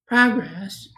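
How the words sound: The word is said in a high-pitched voice.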